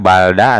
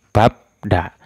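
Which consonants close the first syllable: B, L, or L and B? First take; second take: L; B. First: The first syllable ends with an L sound. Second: The first syllable ends with a B sound. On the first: The speaker calls it wrong. "Tidak balda atau balebda" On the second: The speaker calls it right. "dibacanya itu babda"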